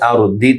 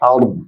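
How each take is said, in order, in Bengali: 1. শব্দটি একটি হ্রস্ব স্বরবর্ণে শেষ হয়। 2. শব্দটি একটি স্বরহীন ব্যঞ্জনে শেষ হয়।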